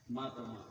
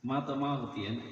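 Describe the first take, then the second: First: Softly repeated. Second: Said in the usual way. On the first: Real, not acted.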